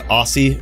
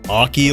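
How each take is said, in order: First: The middle consonant is an s sound. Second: The middle consonant is a k sound. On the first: This flows more smoothly off the tongue. The speaker calls it right. "Aussie just sounds smooth" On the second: This follows the original word Oculus. The speaker calls it wrong. "I think Aki sounds so awkward"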